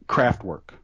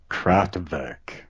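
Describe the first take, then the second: First: The name is said with English-style sounds. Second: The name is said with German-style sounds. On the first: The speaker calls it wrong. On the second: The speaker calls it right.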